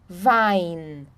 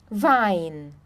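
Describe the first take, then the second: Both takes have the same delivery.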